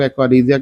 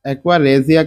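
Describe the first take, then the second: First: "aqua regia" said as AK-wa REE-zia; "regia" pronounced REE-zee-ya; alternative pronunciation. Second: "aqua regia" said as AK-wa REH-zia; "regia" pronounced REH-zee-ya; alternative pronunciation. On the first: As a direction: say "regia" with a long "ee" in the first syllable. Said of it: "बहुत से लोग aqua regia कहते हैं". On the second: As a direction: say "regia" with an "eh" in the first syllable. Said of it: "तो कुछ भी आप कह सकते हैं". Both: Shown as a demonstration.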